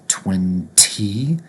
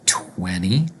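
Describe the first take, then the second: First: The t after the n is clearly pronounced. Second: The t after the n is dropped. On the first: The speaker calls it wrong. "It's more effort to say twenty" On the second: The speaker calls it right. "with an N instead of a T"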